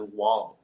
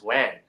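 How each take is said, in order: First: The name is said with an 'aw' vowel. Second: The name is said with an 'a' vowel. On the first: This is how the family says it. "in our way of pronouncing is [name]" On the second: This is how others read the spelling. "people like to pronounce it as Wang"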